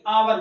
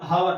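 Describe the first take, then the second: First: The word starts with a vowel, no h. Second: The word starts with an h sound. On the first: The speaker calls it right. "नहीं आवर बोलते हैं" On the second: The speaker calls it wrong. "बोलते हैं हावर"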